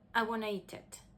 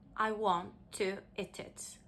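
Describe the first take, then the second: First: The words are reduced and linked with schwa. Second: The words are said fully and separately.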